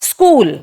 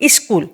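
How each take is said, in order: First: It is said with a neutral English accent. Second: It is said with a Bengali-influenced accent. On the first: The speaker calls it right. "Actually কি হবে, স্কুল" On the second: The speaker calls it wrong. "প্রোনাউন্সিয়েশনটা ওদের এমনি যে স্কুল, কিন্তু actually ওটা হচ্ছে এমটিআই এর জন্য"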